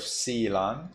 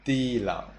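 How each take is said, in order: First: Silang starting with a plain S; standard S reading. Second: Tilang starting with a th; tongue to teeth for tilang, said thee-lang; tilang, th in place of S; Burmese th reading. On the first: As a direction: hiss the s of silang, rising. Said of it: "Instead of silang". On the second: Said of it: "S sound into tha". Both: Shown as a demonstration.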